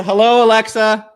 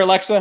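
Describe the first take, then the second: First: Louder, higher call of Hello, Alexa; mock greeting to a smart speaker. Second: Said in the usual way. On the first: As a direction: hail the speaker like a device.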